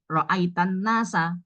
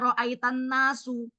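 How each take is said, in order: First: The last word ends with an 'a' vowel. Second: The last word ends with a 'u' vowel. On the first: The people are the object of the verb. The speaker calls it right. "jadi ro'aitan nasa" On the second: The people are not the object of the verb. The speaker calls it wrong. "nggak boleh dibaca ro'aitan nasu"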